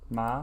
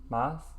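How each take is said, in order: First: The word ends on the vowel, no s sound. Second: The word ends with an audible s sound. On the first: The speaker calls it right. "You just don't pronounce the S?" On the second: The speaker calls it wrong. "But there's an S in it"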